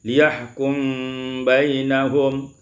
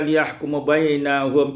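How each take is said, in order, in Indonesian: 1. Huruf m tidak bervokal dan langsung menyambung ke kata berikutnya. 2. Ada vokal setelah huruf m sebelum kata berikutnya.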